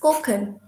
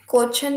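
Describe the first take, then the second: First: The middle consonant is a 'k'-like sound. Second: The middle consonant is a 'ch' sound. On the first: The speaker calls it right. "It's कोकन" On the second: The speaker calls it wrong. "कोचन नहीं"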